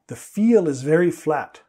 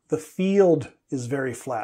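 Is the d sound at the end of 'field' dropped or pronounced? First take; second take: dropped; pronounced. First: The d sound at the end of field is dropped. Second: The d sound at the end of field is pronounced. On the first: It sounds like a different word. The speaker calls it wrong. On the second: The intended word is clear. The speaker calls it right.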